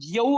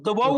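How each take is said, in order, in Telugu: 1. రెండో హల్లు y శబ్దం. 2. రెండో హల్లు v శబ్దం.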